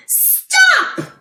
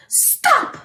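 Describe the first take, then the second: First: Sudden high shout of stop. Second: Mock shout. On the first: Pretend. Voicing Carter telling the truck, a high shouted stop. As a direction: yell it to halt the truck. Child's call acted out. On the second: Retelling Carter's call to the truck, high mock shout. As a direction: call out stop, higher. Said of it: "Carter's telling puppy truck".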